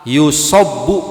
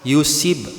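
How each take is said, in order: First: The vowel after the s is a. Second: The vowel after the s is i. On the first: "dengan sod yang dipathah" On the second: "atau sodnya di kasroh"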